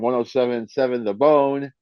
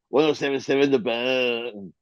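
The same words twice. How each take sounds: First: It is said in a plain, ordinary voice. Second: It is said in an exaggerated announcer voice.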